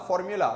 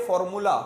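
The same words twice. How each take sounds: First: फॉर्मूला with a y-glide, for-myu-la; correct 'yu' sound. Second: फॉर्मूला with a plain 'oo', no y-glide; wrong pronunciation. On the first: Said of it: "यू को सही बोलना है". (फॉर्मूला को 'फॉर्म्यूला' बोलें) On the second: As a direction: say फॉर्मूला as for-moo-la. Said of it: "ना के फॉर्मूला". (फॉर्मूला को बिना 'यू' के, 'मू' से बोलें) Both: Shown as a demonstration.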